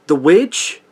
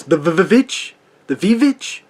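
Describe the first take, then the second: First: Said in the usual way. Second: "The V-V-Vitch" with a stuttered V for W; mock the old-English title, "Vitch" with a V; mock title spelling. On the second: Shown as a demonstration. Mocking the film's title, "The V-Vitch" with a V sound. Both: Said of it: "or as the title is".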